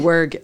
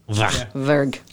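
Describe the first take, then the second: First: The word begins with a W sound. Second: The word begins with a V sound. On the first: The speaker calls it wrong. "it's not a W" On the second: The speaker calls it right. "it's actually V"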